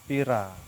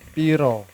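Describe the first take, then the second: First: The word ends with an 'a' vowel. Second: The word ends with an 'o' vowel. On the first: This is how people in Banyumas and Cilacap say it. "Tapi kalau di Banyumas, Cilacap" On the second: This is how people in Surabaya say it. "Kalau di Surabaya itu kan bilang piro"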